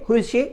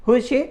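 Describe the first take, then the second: The two takes are said the same way.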